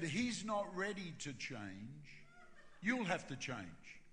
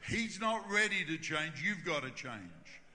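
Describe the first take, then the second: First: Slow, even, deliberate delivery; measured pronouncement. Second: Loud, emphatic "He's not ready to change", slowing on "You've gotta change"; firm insistence. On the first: Holy Spirit speaking to the pastor, slow and measured. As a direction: tell it slowly and patiently. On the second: God overruling the pastor, "You've gotta change" firm and emphatic. God repeats it more firmly. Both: Retold or imitated.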